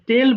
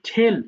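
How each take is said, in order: First: The first consonant is plain, without a puff of air. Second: The first consonant has a strong puff of air. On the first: The speaker calls it wrong. "টেল বলা যাবে না" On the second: The speaker calls it right. "ঠয়ের মতো উচ্চারণ করবা"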